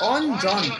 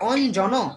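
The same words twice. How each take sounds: First: The word ends sharply on the consonant. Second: The word ends with an added vowel sound. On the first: The speaker calls it right. "আমরা বলি অঞ্জন" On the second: The speaker calls it wrong. "আমরা কিন্তু বলি না অঞ্জন"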